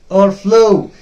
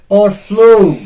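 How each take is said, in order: Both takes have the same delivery.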